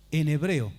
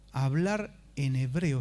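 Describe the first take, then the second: First: "hebreo" said louder and stressed with a falling end; énfasis en hebreo. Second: Said in the usual way. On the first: Shown as a demonstration. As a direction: land hard on "hebreo". (acentuar con fuerza "hebreo") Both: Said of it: "Escuche bien".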